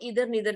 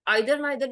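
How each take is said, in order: First: The first vowel sounds like 'ee'. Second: The first vowel sounds like 'eye'. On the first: "इधर नीदर भी बोलते हैं, दोनों तरह से आप इसको प्रोनाउंस कर सकते हैं" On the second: "आइदर नाइदर भी बोलते हैं इसको"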